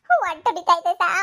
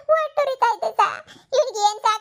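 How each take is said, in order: First: Said in the usual way. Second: Higher, louder wail through tears; mother wailing to the doctor about her poisoned son; crying. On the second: Acted. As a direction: break down sobbing over her son.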